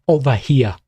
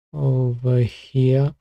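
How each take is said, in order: First: Over here, Boston accent, dropped r. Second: Said in the usual way. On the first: Shown as a demonstration. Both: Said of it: "with the Boston accent".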